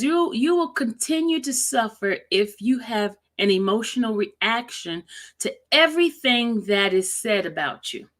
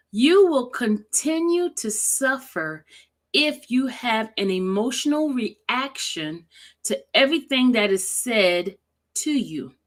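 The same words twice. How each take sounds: First: Said in the usual way. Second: Slow, deliberate read with pauses between phrases. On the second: Shown as a demonstration. Rereading a quote so viewers can feel it, slowly. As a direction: read it slowly to let the feeling land. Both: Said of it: "I'm gonna read it slowly".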